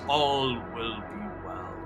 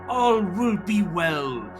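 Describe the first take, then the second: First: The voice is low and flat in pitch. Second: The voice is high-pitched and slightly manic. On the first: "in a low, monotone voice" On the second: "the voice rising uh, into a slight manic pitch"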